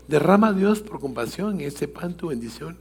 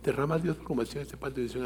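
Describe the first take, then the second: First: The prayer is said at a calm, normal pace. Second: The prayer is rushed out very quickly. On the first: The prayer is said as it was taught. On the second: The children were competing to finish first.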